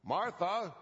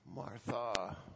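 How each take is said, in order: First: The name is said in an irritated tone. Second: The name is said in a disappointed tone. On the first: The speaker is annoyed with her. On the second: The speaker is let down by her. "Was it disappointed?"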